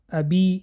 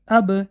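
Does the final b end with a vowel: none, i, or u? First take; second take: i; none. First: The b is followed by an added i vowel. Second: The b ends with no added vowel. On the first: The speaker calls it wrong. "ابی نه" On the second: The speaker calls it right. "بلکه اب"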